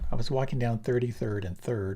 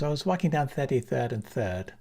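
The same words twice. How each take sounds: First: It is spoken in a Standard American accent. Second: It is spoken in a Ghanaian English accent. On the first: "Standard American" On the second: "Ghanaian is"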